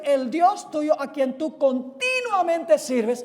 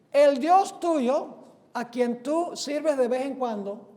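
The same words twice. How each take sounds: First: CONTINUAMENTE stretched high and loud on "ti"; stress on CONTINUAMENTE. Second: EL DIOS TUYO loud and drawn out, then DE VEZ EN CUANDO easing off; deliberate misquote. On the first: Preacher corrects the verse for the congregation, hard stress on CONTINUAMENTE. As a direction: proclaim it loudly, hammering the word "continuamente". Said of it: "ahora viene la palabra clave". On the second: Preacher misquotes the king to test the congregation, deliberate misquote. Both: Shown as a demonstration.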